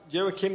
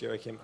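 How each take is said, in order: First: It is said in a normal voice. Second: It is said in a deep voice. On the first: The speaker calls it wrong. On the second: The speaker calls it right.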